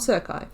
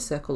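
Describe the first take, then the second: First: The word ends with an ee sound. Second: The word ends with an l sound. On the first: The speaker calls it wrong. "not Circi" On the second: The speaker calls it right. "Said it right this time"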